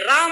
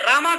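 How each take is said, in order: First: The word ends without a final long vowel. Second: The word ends with an added long 'aa' vowel. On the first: The speaker calls it right. "राम है" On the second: The speaker calls it wrong. "रामा कर दिए"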